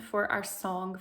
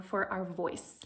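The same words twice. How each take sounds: First: Said in the usual way. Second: Breathy whispered for our voice. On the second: Shown as a demonstration. Teacher closing the thought in a whisper. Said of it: "unvoiced whisper".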